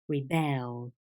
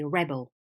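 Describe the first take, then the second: First: It carries the stress pattern of the verb. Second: It carries the stress pattern of the noun. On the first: It names the act of resisting. "But when it's a verb, you say rebel" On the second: It names a person who resists. "When the word is a noun, the stress changes and you say rebel"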